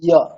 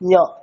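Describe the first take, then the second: First: The sound is made without nasal resonance. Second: The sound is made with nasal resonance. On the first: "এমনি ইয় কেমন হচ্ছে" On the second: "আর একটু নাকের সাহায্য নিয়ে করলে"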